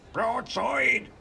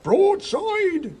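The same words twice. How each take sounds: First: High shout, a little held back; high-pitched answering call; crew echoing order. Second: Very high, loud battle cry; loud, high-pitched command; shouted battle order. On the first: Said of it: "repeated the crew". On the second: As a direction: bellow the order at full volume. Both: A narrator's reading.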